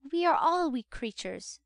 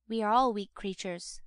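First: Higher-pitched matron stating a principle; Mrs. Corney. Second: Lightly voiced beadle, close to the narrator's pitch; Mr. Bumble. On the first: Matron laying down a general principle to the beadle, higher-voiced. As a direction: lift the pitch for a lady's pronouncement. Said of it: "said Missus Corney, laying down a general principle". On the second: Beadle agreeing with the matron, lightly in character. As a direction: echo her with a hint of the beadle. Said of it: "said Mister Bumble". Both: A narrator's reading.

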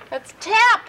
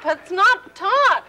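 First: "tap" with open a vowel; tap with short a. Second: "top" with an open o, slow. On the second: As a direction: stretch the o in "top". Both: Shown as a demonstration.

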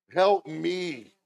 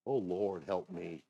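First: High, loud cry for help; loud plea. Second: Said in the usual way. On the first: Real, not acted. Preacher pleading with the Lord for help, loud impassioned cry. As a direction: cry it out to heaven.

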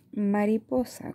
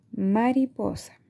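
First: Said in the usual way. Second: Slow, syllables apart; slowly segmented. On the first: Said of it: "¿Con qué sílaba empieza?". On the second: Shown as a demonstration. Teacher modelling a word for children, slow and syllabic. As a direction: spell out Mariposa by its beats. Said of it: "vamos a ir segmentando".

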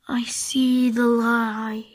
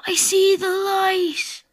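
First: Slow, low whispered last words; dying whisper. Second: Slow, loud dramatic dying line; hammed-up last breath; dying words. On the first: Pretend. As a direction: fade out in a whisper. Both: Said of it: "pretend like you're dying".

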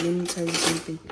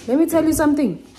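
First: Said in the usual way. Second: Loud, fast and higher "Let me tell you something"; emphatic loud. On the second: Shown as a demonstration. Repeated emphatic.

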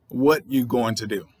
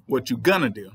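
First: "What you going to do" without the R in "are"; dropped R. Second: "gonna" run together in place of "going to". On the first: Showing viewers how slang drops the R. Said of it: "you'll lose the R". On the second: Demonstrating lazy slang to writers. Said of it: "Then you'll lose the going to". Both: Shown as a demonstration.

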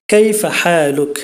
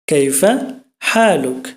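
First: কাইফা হালুক said slowly, each syllable drawn out in Arabic sounds; teacher models কাইফা হালুক at half speed; slow Arabic demo. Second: কাইফা, then a pause, then হালুক, each word apart; teacher repeats কাইফা হালুক word by word; split Arabic demo. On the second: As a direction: break কাইফা হালুক into its two words. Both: Shown as a demonstration. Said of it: "কেমন আছেন এটা যদি আমরা শুদ্ধ আরবিতে বলতে চাই".

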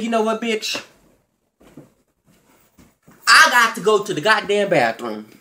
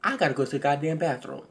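First: Mock retort. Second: Quick, quiet throwaway mumble of I gotta go to the goddamn bathroom; lame excuse. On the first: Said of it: "I said". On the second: Retold or imitated. Mocking the ex's lame exit line, quick and mumbled. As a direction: mumble the excuse softly and fast, like dodging. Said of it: "And the best line you got is".

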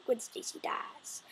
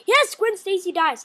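First: Slow hushed whisper of "Gwen Stacy dies"; voiceless dramatic whisper. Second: Loud proud confirmation, "Yes" stressed; loud declaration; emphatic loud. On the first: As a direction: breathe it like a secret, slowly. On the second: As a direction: boom it out as a reveal. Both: Acted. Whispered then repeated aloud.

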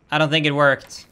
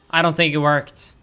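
No difference in how they are said.

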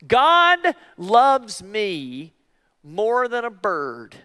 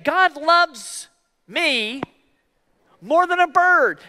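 First: Very slow, drawn-out self-reminder; slow affirmation. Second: Higher, rising call for them to repeat; prompting the congregation. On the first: Preacher showing the congregation how to remind themselves, slowly. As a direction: savor each word as a promise. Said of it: "sometimes I even have to do this". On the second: Preacher leading the congregation in the phrase, higher. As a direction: lift it up so they say it back. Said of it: "say it". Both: Shown as a demonstration.

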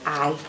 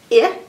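First: "I" said as the letter's name; long vowel "eye" for "I". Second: "I" as the short vowel in "itchy"; clipped short vowel "ih" for "I". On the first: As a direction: say "I" like the word eye. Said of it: "His long sound, he says his name". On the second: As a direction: say "I" as "ih", not its name. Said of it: "Its short sound is". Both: Shown as a demonstration.

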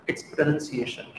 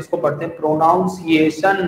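First: Pronunciation said as "pro-nun-see-AY-shun" with a short nun; slow and soft, the correct nun sound in pronunciation. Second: Pronunciation said as "pro-NOUN-ciation" with the "ow" sound; the common mistaken "pronounce" vowel in pronunciation; wrong pronunciation. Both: Shown as a demonstration. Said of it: "it's not pronunciation".

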